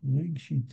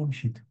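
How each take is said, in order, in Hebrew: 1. הטעם על ההברה הראשונה. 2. הטעם על ההברה האחרונה. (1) "מלעיל" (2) "לא רגשית"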